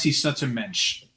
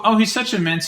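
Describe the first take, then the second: First: Put-on lower, slow Yiddish-accented repeat of "mensch"; echoing the fake Yiddish accent, slow and low; drawn-out mock Yiddish accent. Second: Higher, louder hammed-up Yiddish accent on "mensch"; retelling a congressman's fake Yiddish accent, mocking. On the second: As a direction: imitate him gushing in a fake Yiddish accent. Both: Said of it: "he assumed a fake Yiddish accent".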